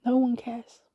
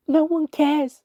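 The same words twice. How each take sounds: First: Subdued after the outburst; restrained, hurt repetition; despairing echo. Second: High, loud cry of despair; anguished shout. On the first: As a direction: let the shout sink into resignation. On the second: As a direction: hurl the words out. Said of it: "and I shouted". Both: A narrator's reading.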